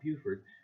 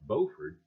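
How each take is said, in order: First: The first syllable sounds like 'byoo'. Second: The first syllable sounds like 'bo'. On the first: The speaker calls it wrong. "not Buford" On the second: The speaker calls it right. "I'm going to try and say this correctly"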